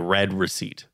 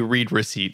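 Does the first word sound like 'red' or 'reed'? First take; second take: red; reed. First: The first word rhymes with 'bed'. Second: The first word rhymes with 'need'. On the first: "I pronounce it as a red receipt" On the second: "why would you say read receipt"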